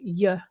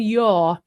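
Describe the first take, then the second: First: The word has a short schwa vowel. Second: The word has a full, long vowel.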